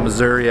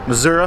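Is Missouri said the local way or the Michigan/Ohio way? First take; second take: Michigan/Ohio; local. First: It is said with the Michigan and Ohio pronunciation. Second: It is said with the local Missouri pronunciation. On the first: This is how outsiders from elsewhere say it. The speaker calls it wrong. "Not Missouri as we would say it, Michigan and Ohio" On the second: This is how people there say it. The speaker calls it right. "I guess is the proper way to say it"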